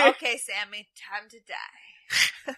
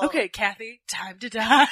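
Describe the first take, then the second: First: Casual threat. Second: Cavalier. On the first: Retold or imitated. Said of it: "so, like, casual". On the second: Pretend. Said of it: "I would cavalierly say that to people".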